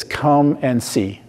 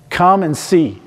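First: Slow and soft, each word laid down gently; gentle slow "Come and see" as Jesus's invitation; slow quoted invitation. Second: "Come" lifted and a bit higher, said to the congregation; repeated invitation. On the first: Acted. Jesus's words quoted, then repeated. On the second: Shown as a demonstration. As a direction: repeat "Come and see" with a lift on "Come".

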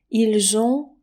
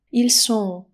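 First: "ils ont" said "eel-zon"; careful teacher's "ils ont", z in the link; voiced z liaison. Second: "Ils sont" with a voiceless s, "eel son"; careful teacher's "Ils sont", s as in sun; clear s sound. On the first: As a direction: join "ils" to "ont" with a buzzing z. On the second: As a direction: contrast it with a crisp s in "sont". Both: Shown as a demonstration. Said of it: "widać, że to jest jednak pewna różnica".

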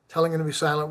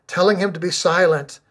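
First: Hushed repeat. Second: Said in the usual way. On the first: A narrator's reading. Preacher repeating the crowd's rebuke to the congregation, hushed. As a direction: let it drop to a subdued aside.

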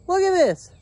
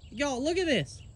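First: Higher, louder, jolted exclaim; startled call. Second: Said in the usual way. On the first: Real, not acted. Startled farmer calls to viewers about the dog. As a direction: blurt it out, still shaken by the scare.

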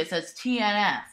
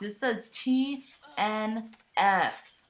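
First: Said in the usual way. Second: T N F said letter by letter, slow and even; T, N, F, each letter given its own beat; spelled out slowly. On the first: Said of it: "now you can see it". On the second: Shown as a demonstration. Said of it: "look at what it says on the box".

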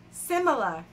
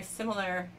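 First: Put-on punched-up Jersey accent on "similar"; mock Jersey-accented repeat; joking Jersey accent. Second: Said in the usual way. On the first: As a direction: say "similar" in a playful Jersey accent, a little louder. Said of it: "doing the Jersey accent as a joke".

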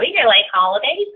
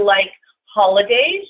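First: Put-on Valley girl uptalk, rising at the end. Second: Said in the usual way. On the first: Shown as a demonstration. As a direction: lightly play up a Valley girl. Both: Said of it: "I sound like a Valley girl".

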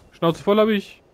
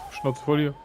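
First: Louder, higher exasperated repeat; really mean it the second time; fed up, louder. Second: Said in the usual way. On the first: Real, not acted. Gamer annoyed at jumping, says it louder.

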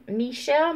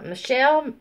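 First: "Michelle" with a clear "mee" first syllable; "Michelle" starting on a long ee; full first vowel. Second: "Michelle" with a quick "muh" first syllable; "Michelle" starting on an unstressed schwa; reduced first vowel. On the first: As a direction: say "Michelle" as mee-SHELL, lifting at the end. Repeats name with clearer first vowel. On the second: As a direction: say "Michelle" as muh-SHELL, falling at the end. Says name, then varies first vowel. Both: Real, not acted.

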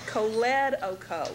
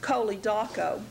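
First: Choledoco as koh-LED-oh-koh; shifted stress. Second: Chole daco as KOH-lee DAH-koh; two separate parts. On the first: Teacher correcting the expected pronunciation, choledoco stressed on the second syllable. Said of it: "because of where the emphasis is placed". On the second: Teacher showing the expected reading, chole daco in two separate parts. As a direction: say chole daco as two words, each stressed at its start. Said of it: "think of it as being pronounced". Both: Shown as a demonstration.

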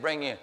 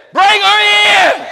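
First: Said in the usual way. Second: Slow, huge, high bellow of an exasperated doctor; doctor losing patience, bellowing the order; booming command. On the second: Retold or imitated. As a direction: roar the order out, dragging each word. Doctor's final, exasperated insistence.

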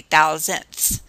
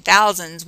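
First: "thousandths" drawn out, with a -ths ending. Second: Said in the usual way. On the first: Shown as a demonstration. Teacher showing students the decimal place name, "thousandths" with a clear -ths ending. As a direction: stretch "thousandths" and sound the final th-s. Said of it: "instead of saying thousands, we say". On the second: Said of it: "instead of saying thousands".

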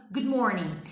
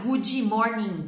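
First: "good" stops on D, straight into "morning"; held final D. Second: "Good" said as "goo-djee" before "morning"; slow, loud "goo-djee morning"; extra vowel mistake. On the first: Teacher correcting learners, "good" ending on a held D. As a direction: clean "good morning", no vowel after the D. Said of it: "Segura esse D". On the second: Teacher mocking learners' mistake, "Good" drawn into "goo-djee". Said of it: "Você não vai falar". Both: Shown as a demonstration.

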